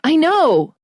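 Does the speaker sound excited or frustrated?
frustrated. It sounds annoyed and weary. Stop telling me, I already know. "you're frustrated, you're like"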